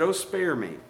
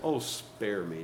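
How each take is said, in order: First: Said in the usual way. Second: Low, soft, drawn-out sarcasm; sarcastic. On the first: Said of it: "He said". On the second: Shown as a demonstration. Telling somebody to leave you out, sarcastic. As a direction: brush them off, slow and dry. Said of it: "You tell somebody sarcastic".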